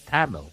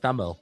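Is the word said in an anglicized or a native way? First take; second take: anglicized; native. First: The word is said with an anglicized pronunciation. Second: The word is said with a native pronunciation.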